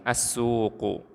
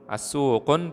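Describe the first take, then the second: First: The word ends in a vowel without n. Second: The word ends with an added n sound. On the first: The speaker calls it right. "Kita harus membacanya tanpa tanwin" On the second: The speaker calls it wrong. "As-suqun tidak boleh"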